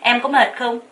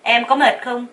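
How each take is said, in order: No difference in how they are said.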